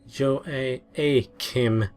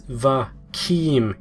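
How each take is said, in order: First: The name begins with a J sound. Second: The name begins with a V sound. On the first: The speaker calls it wrong. "Harvin had pronounced it Jo-A-Kim" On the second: The speaker calls it right. "It starts with a Va sound"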